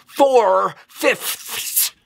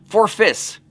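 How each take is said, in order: First: Every final consonant is sharply and separately pronounced. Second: The final consonants run together casually. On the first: "put everything he had into every consonant" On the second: "is how we usually say it"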